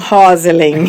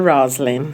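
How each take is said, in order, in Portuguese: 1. O nome é dito meio no estilo português. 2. O nome é dito com pronúncia inglesa. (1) "eles fazem meio português" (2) "Na realidade é o nome inglês"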